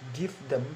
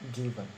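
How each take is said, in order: First: The th sound of them is said clearly. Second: The th sound merges into the preceding v. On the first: "In normal sound is give them" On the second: "in progressive assimilation is become given"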